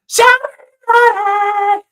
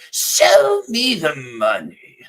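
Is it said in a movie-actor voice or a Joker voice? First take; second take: movie actor; Joker. First: It is said in a movie-actor voice. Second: It is said in a Joker impression.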